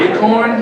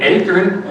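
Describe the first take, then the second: First: The second syllable sounds like 'corn'. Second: The second syllable sounds like 'kern'. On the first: "you mean acorn?" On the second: "A K E R N"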